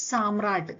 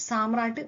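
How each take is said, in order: Both takes have the same delivery.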